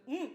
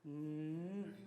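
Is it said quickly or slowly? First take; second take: quickly; slowly. First: It is said quickly and sharply. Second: It is said slowly and calmly.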